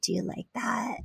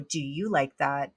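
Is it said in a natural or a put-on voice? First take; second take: put-on; natural. First: It is said in an exaggerated put-on voice. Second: It is said in her natural voice.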